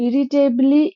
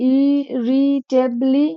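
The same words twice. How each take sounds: First: Said in the usual way. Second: ইরিটেবলি drawn out slowly in separate syllables. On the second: Shown as a demonstration. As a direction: sound out ইরিটেবলি very slowly, piece by piece. Sounds out spelling by syllables.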